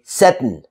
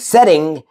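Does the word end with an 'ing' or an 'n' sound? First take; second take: n; ing. First: The word ends with a plain 'n' sound. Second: The word ends with a full 'ing' sound. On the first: "you say settin'" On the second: "Instead of saying setting"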